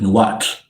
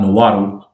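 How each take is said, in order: First: The word ends in a single 'tl' sound. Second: The word ends in an English 'dle' syllable. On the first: This is the native way to say it. The speaker calls it right. "It's Nawat" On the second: This is how English speakers say it. The speaker calls it wrong. "like us English speakers say"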